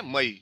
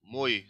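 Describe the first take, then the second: First: मई in two syllables, "ma-EE"; short a then stressed ई in मई; two-syllable plural. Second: मोई as one syllable, "moy"; one-syllable singular. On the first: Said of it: "टू syllables हैं इसमें". (मई दो syllable में) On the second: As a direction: glide from o to y in मोई. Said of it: "singular one syllable". (मोई एक ही syllable में) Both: Shown as a demonstration.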